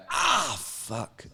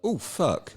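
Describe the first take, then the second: First: High falling mock yelp; retold pained cry. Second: High-pitched mild "oh" of dawning trouble; retold alarm. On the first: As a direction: re-enact the delayed pain with a drawn-out "ah". Retelling delayed pain after fall. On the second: Retelling own reaction to fall.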